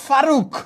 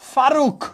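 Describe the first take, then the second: First: The word ends on a bare consonant. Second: The same.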